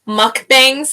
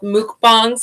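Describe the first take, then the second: First: It is said with an English-style pronunciation. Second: It is said with a Japanese-style pronunciation. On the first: "I think that's the English pronunciation" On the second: "I think that's maybe the Japanese"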